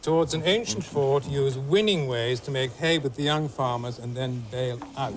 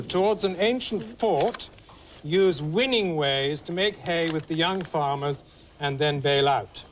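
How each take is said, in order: First: Slow clue reading; clue read again. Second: Slow, deliberate clue read; game host reading a clue. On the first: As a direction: repeat the riddle slowly. Repeats the clue. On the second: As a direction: read the riddle out slowly. Reads the clue aloud. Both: Acted.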